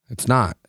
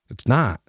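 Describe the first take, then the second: No difference in how they are said.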